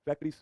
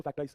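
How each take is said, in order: First: फैक्टरीज ending in a long "eez"; mispronounced word. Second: फैक्टराइज ending like "rise"; corrected pronunciation. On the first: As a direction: misread it as फैक्टरीज, rhyming with "breeze". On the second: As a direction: say फैक्टराइज with a long "eye" sound. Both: Shown as a demonstration. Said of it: "फैक्टराइज बोलो दोस्तों इसको".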